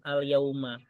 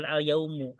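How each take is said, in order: First: Al-yauma with final a, the right reading; correct ending. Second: Al-yaumu with final u, marked wrong; wrong ending. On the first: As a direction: ends al-yauma on an open a. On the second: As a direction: ends al-yaumu on a u vowel. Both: Shown as a demonstration. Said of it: "bacanya bukan al-yaumu".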